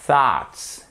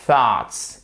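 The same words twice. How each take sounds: First: "thoughts" with a soft blown TH. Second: "thoughts" with a soft breathy TH. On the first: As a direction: blow air between tongue and upper teeth on "thoughts". (TH doux soufflé sur "thoughts") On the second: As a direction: say "thoughts" with a light hiss between tongue and teeth. (TH doux et ténu sur "thoughts") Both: Shown as a demonstration. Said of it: "c'est ce qui fait le soft T H".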